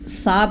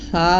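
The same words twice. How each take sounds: First: The consonant is a hissing s sound. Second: The consonant is a soft th without hissing. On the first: The speaker calls it wrong. "सा पढ़ना गलत है" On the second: The speaker calls it right. "सा में सीटी नहीं आएगी"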